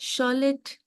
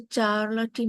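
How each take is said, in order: First: The name begins with an sh sound. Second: The name begins with a ch sound. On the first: The speaker calls it right. "This is शॉलेट Brontë" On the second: The speaker calls it wrong. "उसको चार्लटी मत बोलिएगा"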